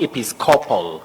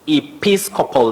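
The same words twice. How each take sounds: First: The stress is not on the second syllable. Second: The stress is on the second syllable. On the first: The speaker calls it wrong. "not episcopal" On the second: The speaker calls it right. "we have the stress on the second syllable"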